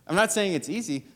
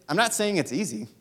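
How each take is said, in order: First: Laughing. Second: Said in the usual way. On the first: Real, not acted.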